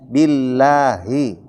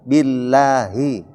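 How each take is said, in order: The two takes are said the same way.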